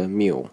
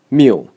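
First: "mu" cut short, with no clear tone; weak form. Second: "mu" said full, with a clear tone; strong form. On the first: Teacher showing an unstressed syllable, short weak "mu". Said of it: "变得很短". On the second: Teacher showing a stressed syllable, strong full "mu". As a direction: give "mu" a full, stressed, pitched vowel. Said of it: "被读得非常饱满". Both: Shown as a demonstration.

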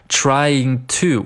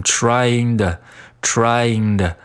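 First: Said in the usual way. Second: "trying to" with "to" weakened to "duh"; reduced "to". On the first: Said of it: "我们在读得快的时候呢". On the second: Shown as a demonstration. Teacher showing fast-speech form, "trying to" reduced to "trying-duh". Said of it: "可以把它读成trying的".

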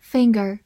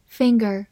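Both takes have the same delivery.

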